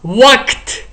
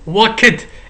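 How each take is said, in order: First: The word ends with a plain t sound. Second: The ending is not a plain t sound. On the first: The speaker calls it right. "The correct pronunciation should be walked" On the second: The speaker calls it wrong. "It's incorrect pronunciation"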